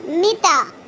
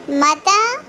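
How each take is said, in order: First: "mita" with i in the first syllable; short i opening "mita", as in dialect; dialect pronunciation. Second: "Mata" with a in both syllables; MSA pronunciation. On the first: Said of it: "in dialect". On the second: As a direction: open first vowel in "Mata", formal Arabic. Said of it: "Huruf Istifham in M S A". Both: Shown as a demonstration.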